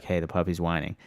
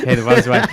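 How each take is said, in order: First: Quiet nudge. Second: "Hey, the puppy's whining" said louder through a laugh; louder retold wake-up call with a laugh; louder laughing nudge. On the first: Retold or imitated. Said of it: "I'd wake her up and be like". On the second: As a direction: wake her again, louder and amused. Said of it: "I'd be like".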